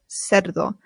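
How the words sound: The c is pronounced as an s. "This makes a S in Latin American Spanish"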